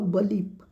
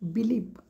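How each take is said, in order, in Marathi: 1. पहिला स्वर लहान, रिड्यूस्ड 'uh' आवाजाचा आहे. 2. पहिला स्वर पूर्ण 'ee' आवाजाचा आहे. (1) "काही वेळा तुम्हाला बलीफ पण ऐकू येईल" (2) "आपण म्हणताना बिलीफ म्हणतो"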